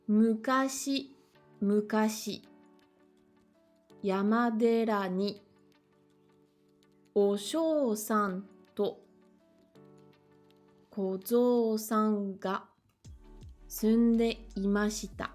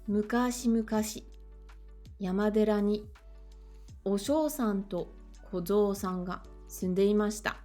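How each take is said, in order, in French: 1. La phrase est lue lentement. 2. La phrase est lue plus vite. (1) "lire la première phrase assez lentement" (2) "Je la relis un petit peu plus vite"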